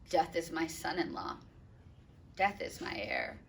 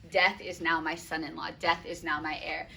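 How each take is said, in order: First: Soft, mournful reading of the line; hushed, heavy lament; quiet grief. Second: Said in the usual way. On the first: Acted. Reading Capulet's lines. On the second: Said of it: "That's, like, a great example of personification".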